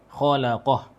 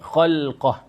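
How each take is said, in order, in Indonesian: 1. Bunyi vokal terdengar di antara l dan q. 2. Tidak ada bunyi vokal yang terdengar di antara l dan q. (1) "kalau mengikut qiraat yang dibaca oleh jumhur" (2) "mereka membaca khalqah"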